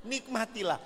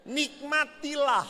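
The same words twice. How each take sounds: First: Said in the usual way. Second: Slow, higher, savoured Nikmatilah; savouring. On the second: Shown as a demonstration. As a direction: draw out Nikmatilah lovingly. (ucapkan Nikmatilah pelan dan tinggi)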